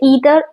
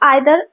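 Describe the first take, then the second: First: The word begins with an 'ee' sound. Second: The word begins with an 'eye' sound. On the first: "American English में इसे ईदर" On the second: "British English में आइदर"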